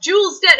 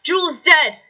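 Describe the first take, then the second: First: An even higher, louder panicked cry; louder call. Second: A high, loud alarmed call. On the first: A servant crying out again in rising panic, loud. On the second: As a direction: shout the news across the monastery. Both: Acted. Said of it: "you hear a voice call".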